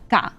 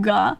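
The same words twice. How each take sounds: First: "ga" with relaxed throat, lighter onset; Korean G. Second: "Ga" with a tensed, voiced English g; pre-tense the throat, then release "Ga". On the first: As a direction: release "ga" forward in the mouth, untensed. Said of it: "and then Korean". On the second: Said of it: "it kinda does a little bit preemptively". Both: Shown as a demonstration.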